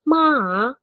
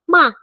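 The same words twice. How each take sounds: First: The syllable is said with a dipping tone. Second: The syllable is said with a falling tone. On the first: "kalau ketiga ma" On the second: "kalau keempat ma"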